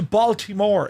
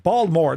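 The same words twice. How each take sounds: First: It is said in a standard, non-local pronunciation. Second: It is said in the local Baltimore pronunciation. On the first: "As opposed to" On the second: "That's how you say it over there"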